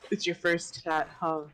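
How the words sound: It is said in a deep voice.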